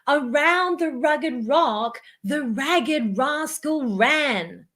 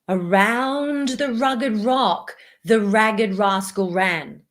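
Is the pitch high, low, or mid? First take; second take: high; low. First: It is spoken at a high pitch. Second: It is spoken at a low pitch. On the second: "Open throat"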